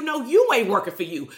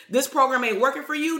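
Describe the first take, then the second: First: "you" punched and falling, pointing at the listener; firm correction, hitting "you"; stress on you. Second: Program hit hard as she throws the question back; mocking the client's question, leaning on "program"; stress on program. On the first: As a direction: turn it back on them, land on "you". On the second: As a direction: lean on "program" like you're quoting their complaint. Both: Shown as a demonstration.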